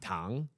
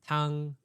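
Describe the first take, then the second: First: It is said with the tone meaning sugar. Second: It is said with the tone meaning soup. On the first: The word means sugar. "and sugar" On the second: The word means soup. "So soup"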